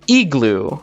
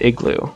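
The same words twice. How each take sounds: First: It is said with a Spanish-like vowel. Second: It is said with a native English vowel. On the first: A Spanish speaker learning English says it. The speaker calls it wrong. "a person who's spoken Spanish all their life tries to learn English, they're probably just going to say" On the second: A native English speaker says it. The speaker calls it right. "instead of"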